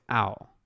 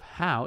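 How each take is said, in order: First: The word begins without any H sound. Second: The word begins with an audible H sound. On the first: "The H is silent. So instead of how, it's owl" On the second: "instead of how"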